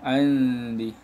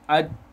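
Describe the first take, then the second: First: The n is half-hidden as a nasal before d. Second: The n merges completely into the d. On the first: The speaker calls it right. "di antara" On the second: The speaker calls it wrong. "kalau idgham"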